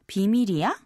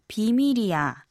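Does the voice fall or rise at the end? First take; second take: rise; fall. First: The voice rises high at the end. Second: The voice does not rise at the end.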